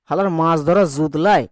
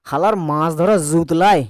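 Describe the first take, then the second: First: The consonants are buzzing z-like fricatives. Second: The same.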